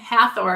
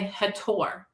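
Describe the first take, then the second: First: The middle consonant is a th sound. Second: The middle consonant is a plain t sound. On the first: The speaker calls it wrong. "I know a lot of people say Hathor" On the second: The speaker calls it right. "I don't think they pronounce the th as a th"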